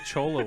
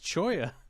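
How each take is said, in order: First: The middle consonant is an L sound. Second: The middle consonant is a Y sound. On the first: The speaker calls it wrong. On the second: The speaker calls it right. "it's choya. Those two L's there"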